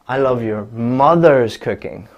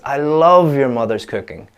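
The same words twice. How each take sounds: First: The stress falls on the word mother's. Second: The stress falls on the word love. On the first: It is the mother's cooking, not another relative's. "So not your father's cooking, not your sister's cooking" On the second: The speaker really loves the cooking. "if I change the stress from love to I"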